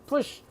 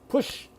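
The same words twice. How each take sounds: The two takes are said the same way.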